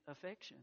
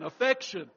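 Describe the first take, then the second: First: Said in the usual way. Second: "affection" said firmly and louder as the correction; "affection" repeated clearly, louder, to set it right; corrected word. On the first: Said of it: "I started saying infection". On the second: Shown as a demonstration. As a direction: land hard on "affection" to fix the slip. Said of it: "but I mean affection".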